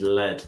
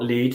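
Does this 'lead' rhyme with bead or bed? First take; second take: bed; bead. First: The vowel is short, rhyming with bed. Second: The vowel is long, rhyming with bead. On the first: The speaker calls it right. "The pronunciation is lead" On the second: The speaker calls it wrong. "not lead"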